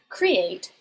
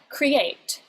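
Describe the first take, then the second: First: The stress is on the first syllable. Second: The stress is on the second syllable. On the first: The speaker calls it wrong. "you'd be saying it kind of weirdly, that you're pronouncing it wrong" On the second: The speaker calls it right. "you're going to put the stress on the second syllable"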